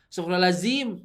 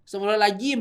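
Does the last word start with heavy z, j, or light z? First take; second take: light z; j. First: The last word starts with a light z. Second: The last word starts with a j sound. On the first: "pakai zai" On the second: "pakai jim"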